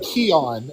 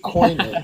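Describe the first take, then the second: First: The word is said like 'Keon'. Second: The word is said like 'Koine'. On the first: The speaker calls it wrong. "I said Keon" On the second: The speaker calls it right. "It's definitely Koine. It's, that sounds better"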